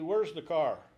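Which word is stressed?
car. The stress falls on car, the unstressed.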